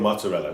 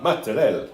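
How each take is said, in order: First: Said in the usual way. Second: Mock-Italian MOZZARELLA with the final "a" dropped; affected "mozzarella", ending on a stressed "rell"; super-serious pronunciation. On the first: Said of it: "Say it in your accent". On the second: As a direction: say MOZZARELLA as a pretentious "matta-RELL". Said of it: "they pronounce everything super serious".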